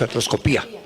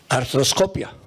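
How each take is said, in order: First: The stress falls on the syllable pi. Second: The stress falls on the syllable co. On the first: This is how it is said in Mexico. The speaker calls it wrong. "en México decimos" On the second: This is how it is said in Spain. The speaker calls it right. "me entrené en España y ahí decían"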